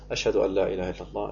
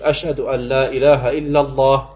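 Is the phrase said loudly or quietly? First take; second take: quietly; loudly. First: It is said quietly, under the breath. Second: It is said aloud at full voice. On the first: It is said privately to oneself. "ich sage für mich leise" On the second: It is proclaimed aloud for others. "1-mal laut"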